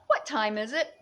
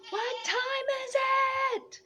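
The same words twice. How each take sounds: First: Said in the usual way. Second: Much higher, airy sing-song; mystical high voice. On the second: Pretend. Mystic high question posed to the viewers. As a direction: ask it like a spirit.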